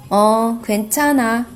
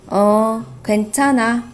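Both takes have the same delivery.

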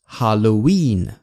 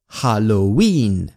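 First: The stress is on the last syllable. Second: The same.

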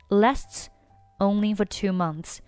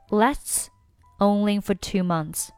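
Both takes have the same delivery.

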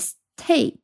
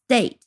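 First: The t is aspirated with a puff of air. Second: The t is unaspirated and sounds like d. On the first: The speaker calls it wrong. "而不念state" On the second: The speaker calls it right. "所以它的清辅音会浊化，变成state"

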